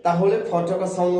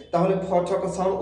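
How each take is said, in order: Both takes have the same delivery.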